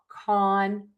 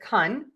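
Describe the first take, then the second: First: The vowel is a long, open 'ah'. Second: The vowel is a short, relaxed 'uh'. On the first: "really open, wide, oval shaped mouth" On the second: "that is the schwa"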